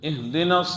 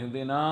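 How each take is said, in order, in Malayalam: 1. അവസാന സ്വരം ഹ്രസ്വമായി ഉച്ചരിക്കുന്നു. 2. അവസാന സ്വരം നീട്ടി ഉച്ചരിക്കുന്നു. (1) "അന്നൂനെ നീട്ടരുത്" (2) "അങ്ങനെ ഓതി കേൾക്കുന്നുണ്ട്"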